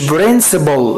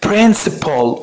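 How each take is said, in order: First: The word begins with a b-like sound. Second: The word begins with a clear p sound. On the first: The speaker calls it wrong. "مش principle" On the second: The speaker calls it right. "لا لا principle"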